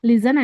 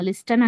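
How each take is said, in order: First: The t sound is silent. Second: The t sound is pronounced. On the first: The speaker calls it right. "లిజన్ అంటాము" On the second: The speaker calls it wrong. "లిస్టన్ అనకూడదు"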